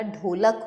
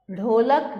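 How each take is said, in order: First: Said in the usual way. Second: ढोलक opened on a flapped rh; ढोलक with ढ़ at the start. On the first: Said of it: "ढोलक होता है". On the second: Shown as a demonstration. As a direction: flap the first sound of ढोलक. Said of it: "ढोलक नहीं होता".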